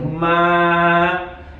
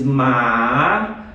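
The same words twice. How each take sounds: First: It is said with the first Mandarin tone. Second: It is said with the second Mandarin tone. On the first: "the first one I think goes something like ma" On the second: "the second one is ma"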